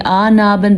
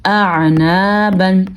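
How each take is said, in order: First: آنابن with a plain long "aa"; no throat squeeze at the start of آنابن; ain lost in alif. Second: Slow اعنابن with a throaty ع after hamza; hamza then clear ain. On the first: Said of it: "تب بھی غلط پڑھیں گے". (آنابن، عین کی جگہ الف) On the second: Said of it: "ہم نے کیا پڑھنا ہے؟". (اعنابن، ہمزہ کے بعد واضح عین) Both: Shown as a demonstration.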